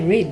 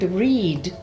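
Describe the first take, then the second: First: The vowel is short and clipped. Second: The vowel is long and drawn out. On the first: The speaker calls it right. "it's a very short" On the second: The speaker calls it wrong. "you can't say the word read"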